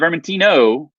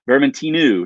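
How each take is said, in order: First: The word ends with an 'oh' vowel. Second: The word ends with an 'oo' vowel. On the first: This is the usual mainland name for the grape. The speaker calls it wrong. "not Vermentino" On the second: This is the local island name for the grape. The speaker calls it right. "Vermentinu, not Vermentino"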